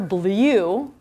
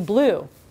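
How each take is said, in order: First: The vowel is said like the word 'you'. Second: The vowel is a plain 'oo' sound. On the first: The speaker calls it wrong. "I don't hear" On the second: The speaker calls it right. "So it would be"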